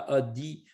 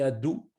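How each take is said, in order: First: The word ends with an i vowel. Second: The word ends with an ou vowel. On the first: "une sorte de chirik, un i" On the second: "ou bien un chourouk, un ou"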